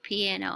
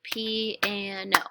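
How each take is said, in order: First: Said in the usual way. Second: "Piano" stretched into three beats, PI, AN, O; syllable by syllable. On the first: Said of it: "I read the word". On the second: Shown as a demonstration. Teacher claps the syllables to check the count, "Piano" in separate beats. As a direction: clap out each syllable of "Piano" slowly and evenly. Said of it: "I'm going to clap the syllables".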